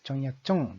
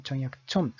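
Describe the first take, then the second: First: チョンヤチョン with the last チョン in the "un" sound; "un" sound demonstrated. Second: チョンヤチョン with the last チョン in the "en" sound; "en" sound demonstrated. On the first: Lecturer contrasting the similar-sounding brother's name, final チョン of チョンヤチョン in "un" sound. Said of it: "うんという発音です". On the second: Lecturer showing the first brother's Korean name, final チョン of チョンヤチョン in "en" sound. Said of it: "円の発音になるんですね". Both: Shown as a demonstration.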